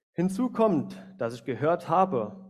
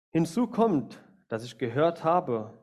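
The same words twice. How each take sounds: Both takes have the same delivery.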